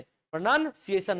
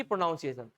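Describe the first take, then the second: First: "प्रोनंसिएशन" drawn out, with a short NUN; correct pronunciation. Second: "प्रोनाउंसिएशन" with OW as in noun; wrong pronunciation. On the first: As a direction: say "प्रोनंसिएशन" slowly as pruh-nun-siation. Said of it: "तो अपन क्या बोलते हैं". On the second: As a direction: say "प्रोनाउंसिएशन" as pro-NOWN-siation. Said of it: "ना कि". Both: Shown as a demonstration.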